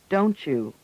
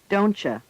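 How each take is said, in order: First: The words blend into 'donchu' with a full vowel. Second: The words blend into 'doncha' with a reduced vowel. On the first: "U is usually pronounced ch or chew" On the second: "U is usually pronounced ch or chew"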